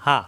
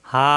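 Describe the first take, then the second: First: হা said short and fast, no stretch; quick short vowel. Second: হা with the a held long; long drawn vowel. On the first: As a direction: clip হা quickly with no delay. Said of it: "দ্রুত উচ্চারণ". (হা দ্রুত, কোনো টান ছাড়া) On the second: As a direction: stretch হা one alif. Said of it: "মাদে আসলি". (হা এক আলিফ টেনে) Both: Shown as a demonstration.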